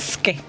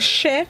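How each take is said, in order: First: The syllable begins with an 'sk' sound. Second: The syllable begins with an 'sh' sound. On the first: The speaker calls it right. "she said no, it's ske" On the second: The speaker calls it wrong. "I used to say she"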